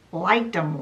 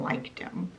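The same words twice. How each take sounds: First: Said in the usual way. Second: Liked him, breathed out unvoiced and much softer; whispered aside. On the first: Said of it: "repeated as aside". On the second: Shown as a demonstration. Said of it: "whispered repeat".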